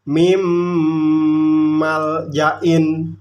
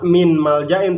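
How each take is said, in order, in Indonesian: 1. Bunyi n menyatu dengan m yang mengikutinya. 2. Bunyi n terdengar jelas sebelum m. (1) "mim masuk ke mim" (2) "Nggak min maljain"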